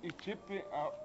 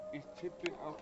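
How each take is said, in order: Both takes have the same delivery.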